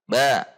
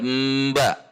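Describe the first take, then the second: First: The sound is released at once, with no hold. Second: A brief held hum comes before the release. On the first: The speaker calls it right. "tidak ada tahanan, langsung keluar" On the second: The speaker calls it wrong. "tidak mba, tidak begitu"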